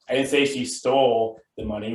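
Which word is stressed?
stole. The word 'stole' carries the main stress. She did something else with it, like borrowing. "which means maybe she borrowed it"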